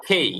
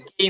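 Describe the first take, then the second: First: "খেই" opening on a breathy kh; K aspirated. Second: "খেই" with a dry K, "kei"; K unaspirated. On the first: Teacher correcting the letter K, "খেই" as aspirated "khei". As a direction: say "খেই" as "khei", with a puff of air. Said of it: "এটা হচ্ছে খেই". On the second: Teacher showing what it is not, "খেই" as unaspirated "kei". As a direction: say "খেই" as "kei", no puff after the K. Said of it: "এটা খেই না". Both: Shown as a demonstration.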